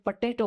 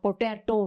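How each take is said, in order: First: The first syllable sounds like 'puh'. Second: The first syllable sounds like 'po'. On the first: This is how people say it here. "ते पटेटो करतात" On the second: This is how it was said back home. "पोटॅटो म्हणायचो आम्ही"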